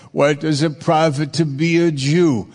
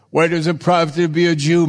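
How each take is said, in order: First: Said in the usual way. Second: Faster, rising toward "profit"; quick emphatic reread. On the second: Shown as a demonstration. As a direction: rattle the verse off with a lift on "profit".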